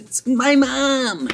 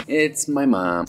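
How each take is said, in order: First: Very high, drawn-out cry; hammed-up big reveal; mock shocked reveal. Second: Said in the usual way. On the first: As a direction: stretch it out in a high squeal. Reveals who is at the door.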